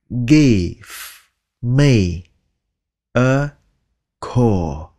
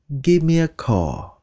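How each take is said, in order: First: The phrase is said slowly with each word clear. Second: The phrase is said fast with words run together.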